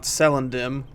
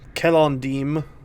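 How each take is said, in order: First: The name begins with a soft S sound. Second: The name begins with a hard K sound. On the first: The speaker calls it wrong. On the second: The speaker calls it right. "the C is always hard in Cinder and Elvish"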